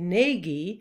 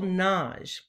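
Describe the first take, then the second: First: The name is said with two syllables. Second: The name is said with one syllable. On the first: "often people say Nagy" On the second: "the Hungarian way, which is with a single syllable"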